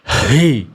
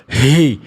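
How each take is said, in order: First: The h is pushed forcefully from the chest. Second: The same.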